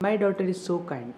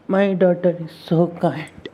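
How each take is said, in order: First: It is said in a plain, simple way. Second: It is said in an exaggerated, dramatic way. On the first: The speaker calls it right. "You could have also said this in a simple way like" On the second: The speaker calls it wrong. "instead of"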